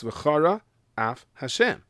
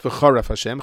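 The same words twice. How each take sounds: First: Slow V'CHARA, break, AF, then Hashem; clearly separated. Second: "v'charaf Hashem" with no break before "af"; unclear, merged words. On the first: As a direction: keep "v'chara" and "af" as two words. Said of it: "pronounce the words clearly". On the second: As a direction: run it together as one word, "v'charaf". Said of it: "if you don't pronounce the words clearly". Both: Shown as a demonstration.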